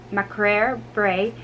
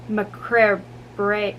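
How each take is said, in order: Both takes have the same delivery.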